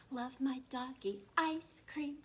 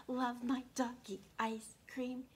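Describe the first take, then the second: No difference in how they are said.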